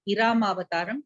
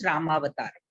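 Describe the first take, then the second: First: The word begins with an extra 'i' vowel. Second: The word begins directly with an 'r' sound. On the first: The speaker calls it wrong. "many people wrongly pronounce it as Iramavataram. It is not Iramavataram" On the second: The speaker calls it right. "it is Ramavataram"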